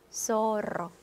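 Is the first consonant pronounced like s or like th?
s. The first consonant sounds like English s. This is how Latin American speakers say it. "중남미 사람들이 발음하면 소로"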